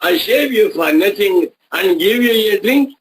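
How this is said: It ends with a rising, question tune. It mocks the idea of a free shave and drink. The speaker calls it right. "ಅದು question mark ಕೊನೆಯಲ್ಲಿ"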